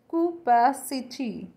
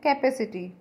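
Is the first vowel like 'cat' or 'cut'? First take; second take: cut; cat. First: The first vowel sounds like 'cut'. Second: The first vowel sounds like 'cat'. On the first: The speaker calls it right. "But it's कूपासिटी" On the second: The speaker calls it wrong. "हम इसे बोलते हैं कैपेसिटी"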